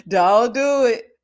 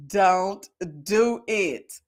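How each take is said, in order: First: DON'T DO IT loud and slow; drawn-out warning. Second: DON'T DO IT spaced word by word; very slow warning. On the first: Host warning off a friend with kids, loud drawn-out warning. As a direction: stretch "Don't do it" out, pushing it louder. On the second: Host warning off a friend with kids, very slow warning. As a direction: stretch each word of "Don't do it" extremely long, lower intensity. Repeats warning even slower. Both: Real, not acted.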